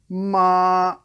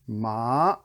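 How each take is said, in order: First: The pitch stays high and level. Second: The pitch rises upward. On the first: "the airplane" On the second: "the bike ramp"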